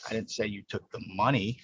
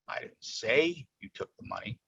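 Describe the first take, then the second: First: The word "you" carries the main stress. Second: The word "say" carries the main stress. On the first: Someone else may have done it. "You hear that? I didn't say you" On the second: It was implied rather than stated outright. "That's implying it, right? I didn't say you did it"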